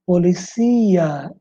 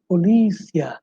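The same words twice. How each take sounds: First: "Policía" slow, stressed po-li-CÍ-a; Spanish stress on CÍ. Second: "polícia" stressed po-LÍ-cia; Portuguese stress on LÍ. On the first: Teacher showing Spanish word, long stress on CÍ. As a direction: stretch the CÍ in "Policía". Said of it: "em espanhol". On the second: Teacher contrasting Portuguese, stressed on LÍ. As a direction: hit LÍ in "polícia". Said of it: "em português". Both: Shown as a demonstration.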